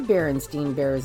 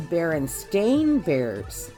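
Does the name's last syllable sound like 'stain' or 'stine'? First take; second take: stine; stain. First: The last syllable of the name sounds like 'stine'. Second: The last syllable of the name sounds like 'stain'. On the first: This is how the name is remembered from the past. "they aren't the Berenstain Bears anymore" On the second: This is how the name is given today. "They are now the Berenstain Bears. ... Not what I remember being Stein"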